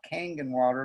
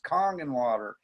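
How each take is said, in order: First: The first word rhymes with 'bang'. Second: The first word rhymes with 'long'. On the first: The speaker calls it wrong. "It's not Kang and Water" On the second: The speaker calls it right. "It's Kong and Water"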